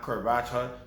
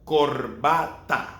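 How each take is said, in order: First: The a vowels are reduced to a weak uh. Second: The a vowels are open, clear ah sounds. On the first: The speaker calls it wrong. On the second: The speaker calls it right.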